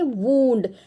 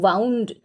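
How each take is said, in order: First: The vowel sounds like 'oo' in 'moon'. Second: The vowel sounds like 'ow' in 'cow'. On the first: An injury. "इसको हम बोलते हैं वूंड" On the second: Something wrapped or coiled around. "हम pronounce करेंगे वाउंड"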